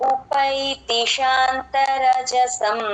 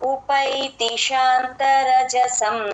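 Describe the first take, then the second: No difference in how they are said.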